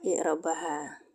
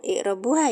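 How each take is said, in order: First: I'rabaha with an "a" before the final "ha"; i'rabaha ending on "baha", lower and softer; corrected vowel ending. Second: I'rabuha with an "u" before the final "ha"; wrong vowel ending. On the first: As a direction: say i'rabaha, a sound in the third syllable. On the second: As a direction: say i'rabuha, u sound in the third syllable. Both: Shown as a demonstration. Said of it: "Jangan i'rabuha ya".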